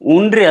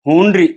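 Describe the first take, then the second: First: The word starts without an h sound. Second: The word starts with a clear h sound. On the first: The speaker calls it wrong. "ಅದು ಉಣ್ರಿ ಅಲ್ಲ" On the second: The speaker calls it right. "ಹಕಾರ ಹಕಾರ correct use ಮಾಡಿ ಹೇಳ್ರಿ"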